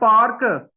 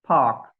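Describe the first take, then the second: First: The r sound is clearly pronounced. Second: The r sound is left out. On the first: The speaker calls it wrong. "अब हम कहते हैं पार्क" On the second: The speaker calls it right. "आर नहीं बोला जाएगा, तो वो बोला जाएगा फा"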